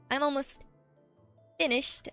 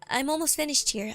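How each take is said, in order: First: It is said in a menacing voice. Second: It is said in a friendly voice.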